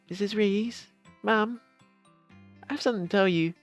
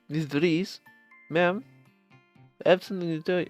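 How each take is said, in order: First: It is said in a little boy's voice. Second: It is said with a slight Russian accent.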